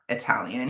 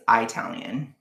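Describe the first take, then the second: First: Said in the usual way. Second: "Italian" with a long "eye" at the start; deliberate mispronunciation. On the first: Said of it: "Just like Sam is not Italian". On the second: Shown as a demonstration. Joking about where Sam is from, "Italian" mispronounced as "eye-talian". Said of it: "he's Italian, okay?".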